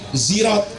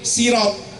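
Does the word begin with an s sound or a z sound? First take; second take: z; s. First: The first sound is a z sound. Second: The first sound is a plain s sound. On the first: "yang dibaca pakai za" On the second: "yang saya ajarkan pakai sin kecil"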